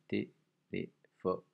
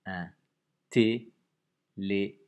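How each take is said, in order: First: "Téléphone" very slow, syllables separated. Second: "téléphone" loud and very slow, syllables detached. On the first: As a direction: stretch out "Téléphone" to count its syllables. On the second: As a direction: dictate "téléphone" loudly, one syllable at a time. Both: Shown as a demonstration. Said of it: "Quatre syllabes".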